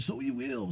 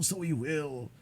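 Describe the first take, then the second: First: Pitched up high on "so he will"; a higher, brighter try at the line; first take up high. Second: Said in the usual way. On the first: Shown as a demonstration. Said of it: "so he will (retake)". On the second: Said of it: "so he will (first take)".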